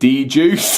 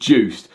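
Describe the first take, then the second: First: It starts with a separate 'dee' before 'juice'. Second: It is said as the single word 'juiced'. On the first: The speaker calls it wrong. "I've been calling it D-Juice" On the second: The speaker calls it right. "they actually pronounce it Juiced"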